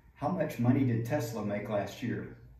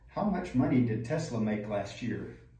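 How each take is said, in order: Both takes have the same delivery.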